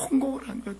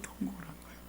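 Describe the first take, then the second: First: Said in the usual way. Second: Whisper. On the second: Shown as a demonstration. Preacher echoing the people's wailing, in a whisper. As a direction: breathe it out in a hushed whisper.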